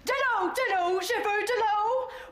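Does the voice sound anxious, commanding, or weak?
commanding. It sounds firm and commanding, like a colonel.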